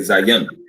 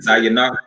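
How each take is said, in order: First: The word ends on the final consonant. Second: The word ends with an added final vowel. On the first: The speaker calls it right. "we would say Zayan" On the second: The speaker calls it wrong. "instead of saying Zayanah"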